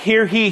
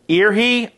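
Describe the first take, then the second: First: The first word begins with an h sound. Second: The first word begins with a vowel sound. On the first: "I said it wrong" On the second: "or ear he"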